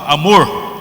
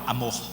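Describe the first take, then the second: First: Said in a rural São Paulo caipira accent. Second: Said in an Amazonian Marajó accent. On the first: This is how the speaker himself says it. "Enquanto eu falo amor" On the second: This is how his wife says it. "ela fala amor"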